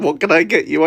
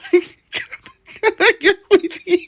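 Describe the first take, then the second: First: Said in the usual way. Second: Higher and very slow, laughing through it; slow laughing slip. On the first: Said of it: "Instead of saying". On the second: Shown as a demonstration. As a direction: drag out the slip while cracking up. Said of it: "I said".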